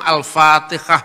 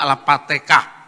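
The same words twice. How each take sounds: First: The word has standard Arabic consonant sounds. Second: The word has Javanese-accented consonant sounds.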